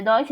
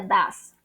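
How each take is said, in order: First: DOES read as written, "DO-es"; spelling pronunciation. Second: DOES said as one syllable, "das"; DOES with a single short vowel, "das"; correct pronunciation. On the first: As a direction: sound out the letters of DOES, like "doys". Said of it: "Se escribe does". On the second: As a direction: say DOES like "duz", not as spelt. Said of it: "se pronuncia does". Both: Shown as a demonstration.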